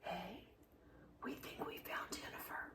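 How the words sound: It is whispered.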